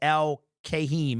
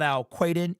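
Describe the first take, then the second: First: The name ends with a 'heem' sound. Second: The name ends with a 'den' sound. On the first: The speaker calls it right. "It is Al Kahim" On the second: The speaker calls it wrong. "It's not Al Quaden"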